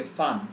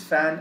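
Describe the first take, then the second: First: Fan with an open "ah", as fahn; German-lesson pronunciation. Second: Fan with the English "a" of cat; English pronunciation. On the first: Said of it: "We say fan". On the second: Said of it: "as in I am your fan". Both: Shown as a demonstration.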